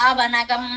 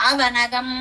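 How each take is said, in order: The two takes are said the same way.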